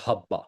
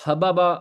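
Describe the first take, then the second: First: "حبا" as HAB-baa; flowing contracted pronunciation. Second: "حبابا" as ha-ba-ba, each syllable apart; uncontracted pronunciation. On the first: Teacher shows the form in flow, "حبا" as HAB-baa. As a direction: merge into one doubled b in "حبا". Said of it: "ہم فلو میں آ کے اس کو بولتے ہیں". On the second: Teacher builds the root pattern, "حبابا" as ha-ba-ba. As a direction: separate both b's in "حبابا". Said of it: "اس کا بنتا ہے ویسے وزن". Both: Shown as a demonstration.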